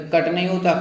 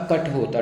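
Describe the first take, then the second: First: कट with a plain unaspirated retroflex t; wrong form. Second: कट ending in aspirated retroflex th, kath; correct form. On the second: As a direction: finish कट with a puff of air. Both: Shown as a demonstration. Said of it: "ठठेरा वाला ठा आता है".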